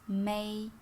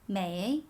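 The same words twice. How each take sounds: First: The syllable is said without any tone. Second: The syllable is said with the third tone.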